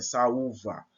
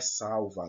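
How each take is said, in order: First: Saúva with a and ú split apart, "sa-ú-va", ú stressed; correct saúva. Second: Salva with the diphthong, al as one syllable "sal-va"; wrong reading salva. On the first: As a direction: break saúva into three syllables, stress on ú. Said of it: "não, é saúva". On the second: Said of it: "Não é salva". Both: Shown as a demonstration.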